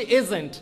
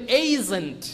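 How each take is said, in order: First: এজেন্ট with a short plain "e" opening; common mispronunciation. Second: এজেন্ট opened with a long gliding "ei"; corrected pronunciation. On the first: Teacher showing what people usually say, common mispronunciation. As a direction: say এজেন্ট the everyday way, "ejent". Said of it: "যার কারণে আমরা কি বলি?". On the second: Teacher correcting how people say agent, corrected pronunciation. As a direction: say এজেন্ট as "EI-jent". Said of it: "এইটার উচ্চারণ যদি এই দিয়ে করি". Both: Shown as a demonstration.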